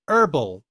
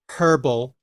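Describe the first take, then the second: First: The initial h sound is dropped. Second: The initial h sound is pronounced. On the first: "The rich people dropped the H" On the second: "the prestige pronunciation"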